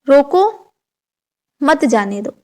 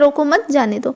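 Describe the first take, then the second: First: It is said with a break inside it. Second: It is said straight through without a break. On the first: "इन सब का meaning अलग अलग है" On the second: "एक sentence बोल दिया"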